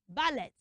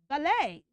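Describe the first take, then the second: First: The word ends in an et sound, t sounded. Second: The word ends in an ay sound, t silent. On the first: The speaker calls it wrong. "not ballet" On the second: The speaker calls it right. "we pronounce it as what? A"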